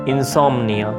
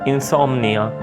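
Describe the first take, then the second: The two takes are said the same way.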